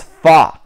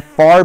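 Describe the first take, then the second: First: "far" with the R dropped; British FAR. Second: Said in the usual way. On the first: Shown as a demonstration. Teaching beginners "far" without its R. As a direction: say "far" as fah, open vowel. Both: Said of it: "far becomes fa".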